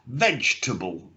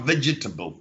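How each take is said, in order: First: The word is said with only two syllables. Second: The word is said with more than two syllables. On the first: The speaker calls it right. "really say it just like with two syllables" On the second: The speaker calls it wrong.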